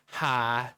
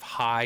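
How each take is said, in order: First: It is said in a Southern accent. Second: It is said in a neutral accent. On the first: "it's hi" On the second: "instead of hi"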